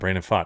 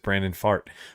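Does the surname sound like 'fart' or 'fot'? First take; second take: fot; fart. First: The surname is said to sound like 'fot'. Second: The surname is said to sound like 'fart'. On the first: It is the real name. The speaker calls it right. "excuse me" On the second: It is a joke on the name. The speaker calls it wrong. "it just kind of sounds like a fart"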